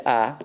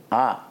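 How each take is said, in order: First: "ah" said plainly from the mouth, no throat. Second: "Ah" pressed deep from the throat; guttural "Ah" squeezed in the throat; low throaty "Ah"; throaty ayin. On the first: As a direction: open "ah" from the mouth. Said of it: "You say ah... comes from the mouth". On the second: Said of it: "that comes from the throat". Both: Shown as a demonstration.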